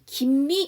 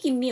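First: The two words are said separately. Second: The two words are run together. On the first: The speaker calls it right. "끊어주셔야 돼" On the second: The speaker calls it wrong. "없어요"

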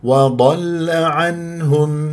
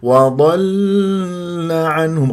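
First: The L sound is short and firmly stopped. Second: The L sound is drawn out and held. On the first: The speaker calls it right. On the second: The speaker calls it wrong.

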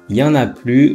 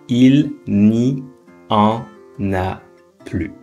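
First: The il and ne are dropped from the phrase. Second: Every word of the phrase is said in full. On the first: "on a enlevé le ne, mais aussi on a enlevé le il" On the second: "veut dire"

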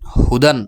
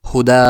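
First: The word ends with a short vowel plus n. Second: The word ends with a long, stretched vowel. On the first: The word is read in spelling mode, without stopping. "বানান করে" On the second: The reader stops on the word. "ওয়াকফ করেন তাহলে হবে হুদা এক আলিফ টান এভাবে"

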